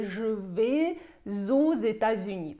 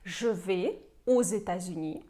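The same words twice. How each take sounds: First: The words are run together with liaison sounds. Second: The words are said without liaison between them. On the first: This follows the formal rule. "поєднуємо все разом" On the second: This is the simplified everyday usage. "можете не поєднувати"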